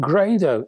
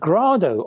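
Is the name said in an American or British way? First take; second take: American; British. First: The name is said with an American pronunciation. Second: The name is said with a British pronunciation.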